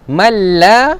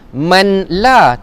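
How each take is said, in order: First: The n merges into the l sound. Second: The n is kept as a separate sound. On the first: The speaker calls it right. "Tapi baca mal, mal. ... masuk dalam huruf lam" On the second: The speaker calls it wrong. "jangan baca mim nun mati di atas man. Man la, tak"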